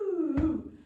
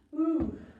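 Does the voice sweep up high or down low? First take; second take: low; low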